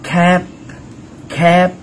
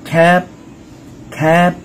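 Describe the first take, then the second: No difference in how they are said.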